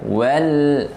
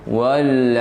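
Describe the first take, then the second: First: The word is said thin and light. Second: The word is said thick and heavy. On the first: The speaker calls it right. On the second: The speaker calls it wrong.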